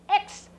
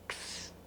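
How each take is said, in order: First: It is said as the full name "eks". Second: It is said as just the sounds "ks". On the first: This is the letter's name. "That's the name of the letter" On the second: This is the sound the letter makes. "But the sound is like K S"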